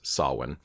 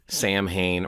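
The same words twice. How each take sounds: First: The middle consonant is said as a W sound. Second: The middle consonant is said as M, not W. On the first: The speaker calls it right. "it kind of makes a W sound" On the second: The speaker calls it wrong. "not Samhain or Samhain"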